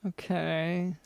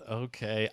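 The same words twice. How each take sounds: First: Doubtful, flat okay, dropping off; a guest host who doesn't buy it, skeptical okay. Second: Mock doubtful okay, quiet and falling; imitating a skeptical okay. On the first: Acted. Host doubting the guest's story, dry skeptical okay. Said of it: "Doctor London still seems skeptical". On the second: Cohost mimicking the other host's doubt, light skeptical imitation. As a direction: echo his unconvinced okay, lightly. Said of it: "skeptical the way he said".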